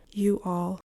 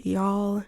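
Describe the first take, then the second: First: Said in the usual way. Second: Y'ALL run together as one syllable; shortened Southern form. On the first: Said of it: "instead of you all". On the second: Shown as a demonstration. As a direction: say "y'all" as one contracted word. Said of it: "They often shorten words".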